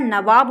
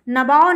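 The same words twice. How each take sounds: First: Said in the usual way. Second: नवाब with b and v swapped, as "nabaav"; wrong pronunciation. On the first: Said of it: "नवाब होता है". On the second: Shown as a demonstration. Teacher shows the wrong word, said "nabaav". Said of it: "नवाब नहीं होता है".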